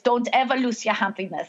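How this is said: It is said with a German accent.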